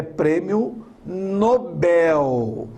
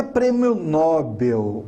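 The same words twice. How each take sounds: First: Nobel slowly, stressed on final BEL. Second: Nobel with stress on NO, NO-bel; wrong first-syllable stress. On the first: Teacher correcting the word, Nobel slow with stress on BEL. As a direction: draw out the last syllable of Nobel, open e. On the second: Teacher showing the common mistake, Nobel stressed on NO. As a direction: hit the NO of Nobel, weak second syllable. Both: Shown as a demonstration. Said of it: "A sílaba mais forte é o bel".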